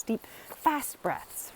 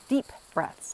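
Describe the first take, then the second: First: Slow words, breathed without voice like panting; fast breathy demo. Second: Said in the usual way. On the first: Shown as a demonstration. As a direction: show quick deep breathing.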